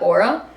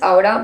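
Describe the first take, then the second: First: The word is said with an English pronunciation. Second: The word is said with a Spanish pronunciation. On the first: "in English, you would probably pronounce that aura" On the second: "but this is Aura by Carlos Fuentes. He's a Mexican writer"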